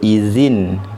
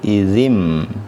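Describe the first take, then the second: First: The word ends with an n sound. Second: The word ends with an m sound. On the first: The speaker calls it wrong. "Kita tak sebut izin" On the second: The speaker calls it right. "kita sebut izim"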